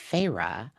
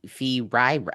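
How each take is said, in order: First: The name does not begin with 'fee'. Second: The name begins with a 'fee' sound. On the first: The speaker calls it right. "it's Feyre" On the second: The speaker calls it wrong. "and not Fee"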